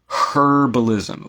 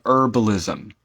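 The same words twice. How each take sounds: First: Herbalism said slow as "ER-balism", no H at all; dropped H. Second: Herbalism with a sounded H, "HER-balism"; herbalism, H pronounced. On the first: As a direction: drop the H in herbalism and stretch it out. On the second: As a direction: say herbalism starting on a clear breathy H. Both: Shown as a demonstration. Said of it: "We don't pronounce the H".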